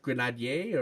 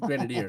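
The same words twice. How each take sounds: First: It is said with a French accent. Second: It is said with an English accent. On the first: The speaker calls it right. "should should be pronounced grenadier" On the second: The speaker calls it wrong. "We say it with an English accent"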